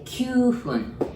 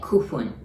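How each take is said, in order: First: The first syllable has a y glide. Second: The first syllable is a plain ku sound. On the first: The speaker calls it right. "We say kyufun" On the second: The speaker calls it wrong. "We don't say kufun"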